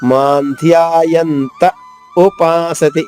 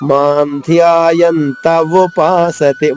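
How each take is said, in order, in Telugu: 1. చివరి పదానికి ముందు చిన్న విరామం ఉంది. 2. పదాలు ఎలాంటి విరామం లేకుండా కలిసిపోతాయి. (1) "ఇలా ఆగితేనే ఊ అనేది గొంతు నుంచి వస్తుంది" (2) "ఆగకుండా పాడేస్తే వాకి ఉకారం ఇచ్చినట్టుగా వస్తుంది"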